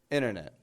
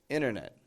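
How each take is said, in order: The two takes are said the same way.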